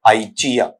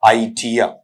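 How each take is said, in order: First: The word ends in a weak 'uh' sound. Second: The same.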